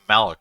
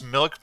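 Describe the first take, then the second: First: The vowel is an open 'ah' sound. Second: The vowel is a short 'ih' sound. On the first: The speaker calls it wrong. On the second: The speaker calls it right.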